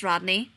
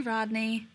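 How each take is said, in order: First: Warning tone. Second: Said in the usual way. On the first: A narrator's reading. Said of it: "he warned". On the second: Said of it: "Shepard drawled".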